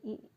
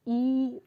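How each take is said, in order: First: The vowel is kept short. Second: The vowel is drawn out long. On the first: "तो हो गया लघु" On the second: "तो ये हो गया गुरु"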